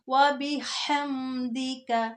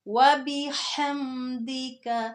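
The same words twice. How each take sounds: Both takes have the same delivery.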